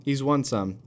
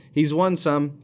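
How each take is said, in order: First: Said in the usual way. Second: Won punched higher and louder; stress on won. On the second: Real, not acted. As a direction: hit the word won hard.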